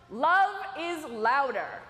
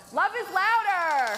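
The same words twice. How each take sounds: First: Said in the usual way. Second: Louder, slow, drawn-out chant; rally the crowd to shout it; loud rallying call. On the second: Shown as a demonstration. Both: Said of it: "I can tell you wanna practice".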